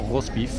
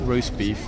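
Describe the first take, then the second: First: It is said with a French accent. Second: It is said with a plain English accent.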